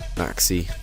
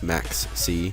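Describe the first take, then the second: First: The name ends with a plain 'ee' sound. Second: The name ends with a separate 'see' sound. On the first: "I'm pronouncing it like Maxi" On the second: "instead of Max C"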